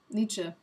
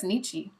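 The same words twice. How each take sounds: First: Nietzsche said as NEE-chuh; final schwa sound. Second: Nietzsche said as NEE-chee; final ee sound. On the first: Streamer correcting herself, Nietzsche ending in "uh". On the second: Streamer guessing who said the quote, Nietzsche ending in "ee". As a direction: end Nietzsche on a clear "ee". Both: Real, not acted. Corrects own way of saying name.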